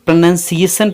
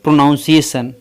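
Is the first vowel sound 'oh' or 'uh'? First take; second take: uh; oh. First: The first vowel is a short 'uh' sound. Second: The first vowel is an 'oh' sound. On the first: The speaker calls it right. "यहाँ ओ का sound अ है" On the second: The speaker calls it wrong. "न कि"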